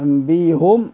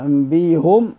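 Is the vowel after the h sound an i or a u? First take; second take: u; u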